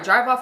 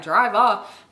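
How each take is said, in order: First: "Drive off" rising at the end; "Drive off" with an audible question mark; question intonation. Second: Said in the usual way. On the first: Retold or imitated. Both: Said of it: "with a question mark".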